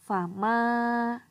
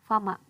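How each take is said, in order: First: The vowel after m is held long. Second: The vowel after m is cut short. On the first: The speaker calls it right. "dipanjangkan dua harokat seperti ini" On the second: The speaker calls it wrong. "itu kurang tepat"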